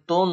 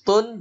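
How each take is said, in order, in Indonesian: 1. Bunyi n kabur, tidak jelas. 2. Bunyi n diucapkan dengan jelas.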